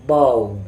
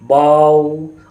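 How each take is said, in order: First: The syllable is said softly and smoothly. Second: The vowel is drawn out long. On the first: The speaker calls it right. "नरमी के साथ पढ़ना है" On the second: The speaker calls it wrong. "इसको खींचकर भी नहीं पढ़ना है"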